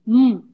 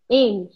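First: M as a closed-lip hum, "mmm"; hummed "mmm" for M; phonic sound of M. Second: Said in the usual way. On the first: Shown as a demonstration. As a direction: sound out M, don't name the letter. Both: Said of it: "o som das letras".

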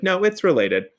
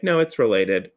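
First: High-pitched, emphatic insistence; insistent contradiction, voice raised in pitch; Patty Harding-esque. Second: Said in the usual way. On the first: Retold or imitated. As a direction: push back firmly, pitch jumping up. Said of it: "a little Patty Harding-esque if needed". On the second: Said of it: "And I'm like".

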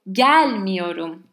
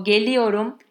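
First: GELMIYORUM with a big, loud GEL; exaggerated first-syllable stress. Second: Said in the usual way. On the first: Shown as a demonstration. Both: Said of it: "I'm exaggerating to make it more clear".

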